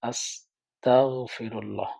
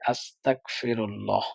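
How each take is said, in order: First: The consonant after 'asta' is a throaty gh. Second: The consonant after 'asta' is a plain k. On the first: It asks God for forgiveness. The speaker calls it right. "আস্তাগফিরুল্লাহ মানে আল্লাহর কাছে ক্ষমা চাই।" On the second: It asks for disbelief. The speaker calls it wrong. "এখানে গইনের জায়গায় কাফটা তার উচ্চারণে চলে আসে।"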